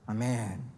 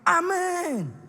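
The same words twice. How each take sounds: First: It is said weakly, without energy. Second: It is said with fiery, strong energy.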